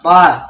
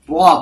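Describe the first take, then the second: First: The r sound is light and thin. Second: The r sound is heavy and thick. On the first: The speaker calls it wrong. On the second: The speaker calls it right. "harus dibaca tebal"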